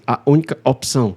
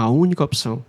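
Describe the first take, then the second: First: A hard glottal catch breaks the words apart. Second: The words flow together smoothly without a catch. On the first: The speaker calls it wrong. "golpe de glote. Sabe o que é golpe de glote? Quando a pessoa diz assim" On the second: The speaker calls it right. "você vai falar lisinho"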